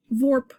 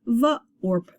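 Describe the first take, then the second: First: Vorp run together, pitched higher; blended word. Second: V, short, then orp after a break; sounded out. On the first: Teacher finishing the sounded-out word, blended vorp. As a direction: blend vorp as one syllable. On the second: Teacher showing the or sound in the middle, V and orp apart. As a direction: split V from orp. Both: Shown as a demonstration. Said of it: "We've got a or sound in the middle".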